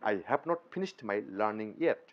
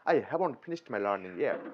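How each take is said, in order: First: Have and not are said as separate words. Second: Have and not merge into one contracted word. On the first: The speaker calls it wrong. "এইভাবে না বলে" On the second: The speaker calls it right. "আমরা বলবো I হ্যাভন্ট"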